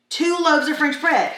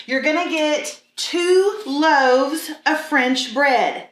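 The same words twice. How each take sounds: First: Said in the usual way. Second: "two loaves of French bread" drawn out slowly, every word weighted; slow and deliberate. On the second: Shown as a demonstration. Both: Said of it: "repeats it".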